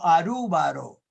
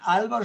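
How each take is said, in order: First: The name is said with an R sound. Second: The name is said with an L sound. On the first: "En el japonés no existe el sonido L. Entonces no dicen Álvaro, sino Arúbaro" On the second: "no dicen Álvaro"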